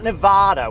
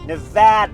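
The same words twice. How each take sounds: First: It is said with an East Coast pronunciation. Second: It is said with the local pronunciation. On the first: The speaker calls it wrong. "that's how East Coasters say it" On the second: The speaker calls it right. "Nevada, not"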